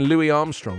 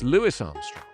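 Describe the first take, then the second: First: The first name ends without an s sound. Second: The first name ends with an s sound. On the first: The speaker calls it wrong. "all these years I've been saying" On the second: The speaker calls it right. "add the S"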